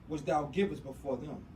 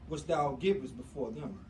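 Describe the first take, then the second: The two takes are said the same way.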